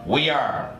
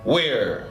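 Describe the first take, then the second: First: The words are said as two syllables. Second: The words are joined into one syllable. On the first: "la forma completa" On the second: "la forma corta"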